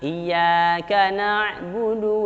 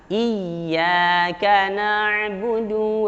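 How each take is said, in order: First: The doubled y is rushed without being held. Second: The doubled y is pressed and held longer. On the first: The speaker calls it wrong. "Jangan sampai tidak ditahan, langsung" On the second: The speaker calls it right. "Tapi ditekan, ditahan"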